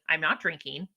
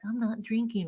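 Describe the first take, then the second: First: It is said firmly and confidently. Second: It is said glumly and sadly. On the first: The decision is definite. The speaker calls it right. "make it definite and say it with confidence" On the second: The speaker regrets the decision. The speaker calls it wrong. "not like Eeyore, like being sad about it"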